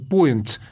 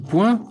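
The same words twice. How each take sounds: First: The word is pronounced with English sounds. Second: The word is pronounced with French sounds. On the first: "в англоязычной транскрипции «Point»" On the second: "произносится просто по-разному"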